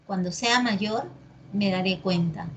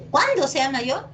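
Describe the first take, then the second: First: Said in the usual way. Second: "Cuándo" punched higher as a question word; mock emphatic question; stress on cuándo. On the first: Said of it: "sin tilde". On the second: Shown as a demonstration. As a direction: hit "Cuándo" with rising emphasis. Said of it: "¿Así es?".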